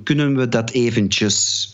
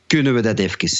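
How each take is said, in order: First: Said in the usual way. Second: Antwerp dialect, "even" said as "efkes". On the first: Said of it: "is eigenlijk een vraag van". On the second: Shown as a demonstration. Songwriter announcing his song title, in Antwerp dialect. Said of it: "in mijn Antwerps dialect".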